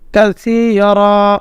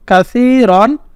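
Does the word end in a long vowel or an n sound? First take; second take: long vowel; n sound. First: The word ends with a long -a vowel. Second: The word ends with an -an sound. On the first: "ওয়াকফ করলে" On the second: "দুই জবর রন"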